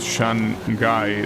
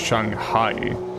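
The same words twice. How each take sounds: First: It is said with an English-style pronunciation. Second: It is said with a Chinese-style pronunciation. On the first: The speaker calls it wrong. "not pronounced like that" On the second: The speaker calls it right. "it's pronounced Shanghai"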